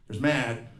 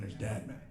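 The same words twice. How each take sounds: First: Said in the usual way. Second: Low, very soft menace; hushed, low mock-threat; dad mad. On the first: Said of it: "and there's dad mad". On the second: Shown as a demonstration. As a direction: drop the voice, quietly ominous. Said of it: "It's a different kind of mad".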